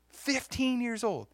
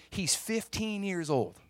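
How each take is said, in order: First: "Fifteen" higher, slow and falling; slow, amazed "Fifteen"; stronger stress on fifteen. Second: "fifteen" stressed, slow and falling; slow emphatic "fifteen". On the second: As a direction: lean on "fifteen" slowly. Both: Shown as a demonstration. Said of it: "repeats age for emphasis".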